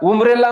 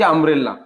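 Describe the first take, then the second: First: The word begins with an 'oo' vowel. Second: The word begins with an 'uh' vowel. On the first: The speaker calls it wrong. "उमरेला म्हणायचं का त्याला? नाही" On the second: The speaker calls it right. "अ होतोय"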